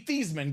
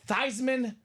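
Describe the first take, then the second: First: The first syllable does not rhyme with Heisman. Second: The first syllable rhymes with Heisman. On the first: This is the family's original pronunciation. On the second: The name was changed to rhyme with a famous award.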